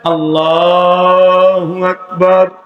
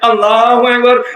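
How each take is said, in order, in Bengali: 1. বাক্যটি ধীরে ধীরে টেনে বলা হয়েছে। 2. বাক্যটি দ্রুত, তাড়াহুড়া করে বলা হয়েছে। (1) "তাকবীর দিতে তিন সেকেন্ড সময়" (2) "যত স্পিড আছে চার পাঁচ নাম্বার গিয়ারে"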